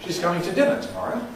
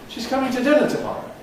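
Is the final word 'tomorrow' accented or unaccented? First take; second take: accented; unaccented. First: The final word tomorrow carries a rising accent. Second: The final word tomorrow is left unaccented.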